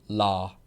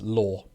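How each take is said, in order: First: It is said with an American accent. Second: It is said with a British accent. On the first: "In American, I think it's more like law" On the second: "in the U K is law"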